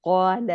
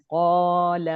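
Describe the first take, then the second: First: قال with the a held just two counts; two-count madd. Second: قال held too long and loud; overstretched madd. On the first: Teacher showing the correct two-count قال. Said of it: "صرف دو count stretch". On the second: Teacher showing قال stretched too far. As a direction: overstretch the a in قال to show the mistake. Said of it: "نہیں، یہ صرف دو count". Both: Shown as a demonstration.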